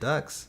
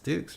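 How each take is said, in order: First: The name has a short vowel like duck. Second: The name has a long vowel like duke. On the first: The speaker calls it wrong. "You don't say it Ducks" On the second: The speaker calls it right. "It's Dukes, right?"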